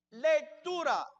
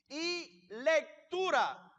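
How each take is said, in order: First: "lectura" hit firmly after a pause; pause, then punch "lectura" with a falling end; "lectura" set apart by a pause and stressed. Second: "lectura" stretched out very slowly; "lectura" spoken very slowly with a falling end; stress on lectura. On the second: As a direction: drag out "lectura" and let it fall. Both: Shown as a demonstration. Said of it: "por qué enfatizo la palabra lectura".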